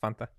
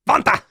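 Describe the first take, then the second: First: It is said calmly in an ordinary accent. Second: It is yelled in a put-on German accent. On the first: "it's Fanta" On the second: "you just yelled and you said that's my German accent"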